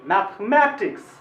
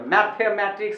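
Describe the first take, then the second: First: The voice rises on the 'ma' syllable. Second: The voice does not rise on 'ma'. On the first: The speaker calls it right. "इसको ऐसे पढ़ना चाहिए" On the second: The speaker calls it wrong. "ऐसे नहीं पढ़ना चाहिए"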